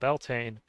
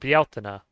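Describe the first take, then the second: First: The name is said with English-style vowels. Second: The name is said with Spanish-like vowels.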